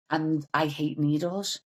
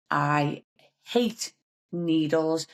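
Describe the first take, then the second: First: Said in the usual way. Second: I HATE NEEDLES, drawn out slowly with weight on each word; slow right down and lean on "hate"; spaced-out, deliberate "hate ... needles"; emphatic repeat. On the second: Real, not acted.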